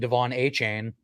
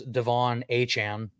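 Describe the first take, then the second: First: The surname ends with a 'chain' sound. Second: The surname ends with a 'chahn' sound. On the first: This is how most people have been saying it. The speaker calls it wrong. "everybody's been saying Devon A Chain" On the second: This is how the player himself says it. The speaker calls it right. "his actual name is Devon Achan"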